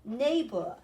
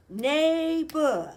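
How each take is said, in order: First: Said in the usual way. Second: "Neighbor" louder and drawn out in two beats, neigh, bor; split into syllables. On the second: Shown as a demonstration. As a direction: stretch "Neighbor" into two clear parts. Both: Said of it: "Two syllables".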